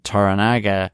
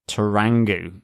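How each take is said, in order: First: The name is said with four syllables. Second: The name is said with three syllables.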